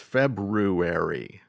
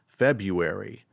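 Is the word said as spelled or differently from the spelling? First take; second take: as spelled; differently. First: The word is said the way it is spelled. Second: The word is said unlike its spelling. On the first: The speaker calls it right. "but it's February" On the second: The speaker calls it wrong. "I thought ... was pronounced February"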